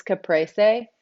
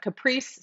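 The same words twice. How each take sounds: First: Caprese said kuh-PRAY-say, three syllables; caprese pronunciation. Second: Caprice said kuh-PREECE, two syllables; caprice pronunciation. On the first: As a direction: sound out the last syllable of caprese as "say". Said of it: "it's caprese". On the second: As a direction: drop the final syllable: caprice, ending on "eece". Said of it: "some people say caprice". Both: Shown as a demonstration.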